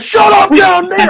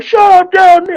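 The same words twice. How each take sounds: First: Much higher, louder mock yell; angry neighbors yelling. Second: Much higher, louder mock yell, fast and sharp; angry neighbors yelling. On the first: Neighbors woken at one in the morning, yelling down. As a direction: bellow it down from a window. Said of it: "They were like". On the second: Retelling neighbors yelling at him, mock yell. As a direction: snap it out like a woken neighbor. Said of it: "instead they were like".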